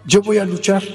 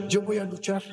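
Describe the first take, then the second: First: Mildly defiant retold declaration; firm retold announcement. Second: Much softer retold declaration; quietly restated resolve; hushed repeat. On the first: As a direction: stand up to your father, slightly raised. First defiant declaration to father. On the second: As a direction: drop the volume right down.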